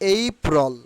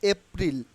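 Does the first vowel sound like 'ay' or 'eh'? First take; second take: ay; eh. First: The first vowel is an 'ay' glide. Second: The first vowel is a short 'eh' sound. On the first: The speaker calls it right. "It will be pronounced only এইপ্রল" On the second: The speaker calls it wrong. "Not এপ্রিল"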